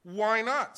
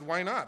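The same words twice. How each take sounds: First: Much higher and louder retort; nearly shouting at the clerk; escalating outraged why not; loud indignant demand. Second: Loud, sharp demand; retold indignant why not; indignant retort. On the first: Retold or imitated. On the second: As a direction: push back hard at the clerk. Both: Retold argument with airline clerk.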